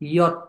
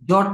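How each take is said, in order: First: It begins with a soft 'y' sound. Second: It begins with a hard 'j' sound. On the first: The speaker calls it right. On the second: The speaker calls it wrong. "জট না কিন্তু"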